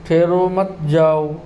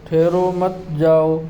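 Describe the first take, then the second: No difference in how they are said.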